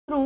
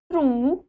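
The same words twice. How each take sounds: First: "त्रु" with a short u; "त्रु" said as a brief tru; short vowel. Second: "त्रु" with a long oo; long vowel. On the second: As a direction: stretch the vowel of "त्रु", as troo. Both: Shown as a demonstration. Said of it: "आपको बारह खड़ी".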